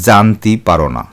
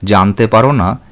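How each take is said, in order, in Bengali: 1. প্রথম শব্দটি 'i' ধ্বনিতে শেষ হয়। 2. প্রথম শব্দটি 'e' ধ্বনিতে শেষ হয়।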